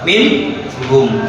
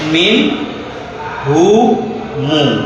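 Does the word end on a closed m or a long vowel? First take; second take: closed m; long vowel. First: The word ends on a closed m sound. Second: The final m carries a lengthened u vowel. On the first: "Dia dibaca sukun. Berarti gimana ya? Tetap min hum" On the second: "kalau yang silah jadi seperti ini. ... Jadi panjangnya berapa? Dua"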